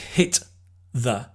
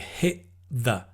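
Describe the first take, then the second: First: The T is released separately before 'the'. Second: The T blends smoothly into the following 'the'. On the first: The speaker calls it wrong. "we don't say hit the" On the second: The speaker calls it right. "we say hit the, because the T and the the, the tongue is in the same position"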